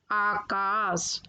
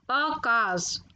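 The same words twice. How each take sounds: First: Said in the usual way. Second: आकाश with a short first vowel, "akaash"; mispronounced आकाश. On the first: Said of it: "फिर उनका शुद्ध उच्चारण". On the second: Shown as a demonstration. Teacher showing children the error, आकाश said "akaash". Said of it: "अशुद्ध शब्द मैंने रखे हैं".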